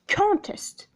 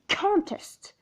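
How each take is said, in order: First: The stress is on the first syllable. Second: The stress is on the first syllable.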